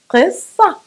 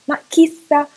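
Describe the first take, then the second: First: The first consonant is made deep in the throat. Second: The first consonant is made at the mouth's front. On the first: The speaker calls it right. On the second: The speaker calls it wrong.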